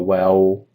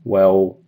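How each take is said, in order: Both takes have the same delivery.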